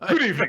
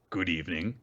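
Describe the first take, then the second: First: It is said in a put-on, refined character voice. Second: It is said in a plain, ordinary voice. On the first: "they say it like doctor Fraser Crane" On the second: "says in a normal voice"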